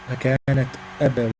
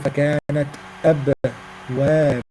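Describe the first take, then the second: First: The b sound is brief, not held. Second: The b sound is held and lengthened. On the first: The speaker calls it right. "So don't stop or don't hold on it" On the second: The speaker calls it wrong. "some people hold on the sound of قلقلة صغرى"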